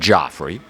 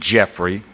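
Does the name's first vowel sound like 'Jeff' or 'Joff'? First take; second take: Joff; Jeff. First: The first vowel sounds like 'Joff'. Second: The first vowel sounds like 'Jeff'. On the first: "some Joffrey. I'll say Joffrey" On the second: "some pronounce it Jeffrey"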